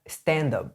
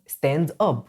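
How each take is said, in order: First: The two words run together as one word. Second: The two words are said separately.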